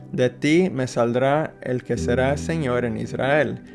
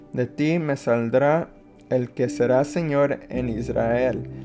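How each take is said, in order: The two takes are said the same way.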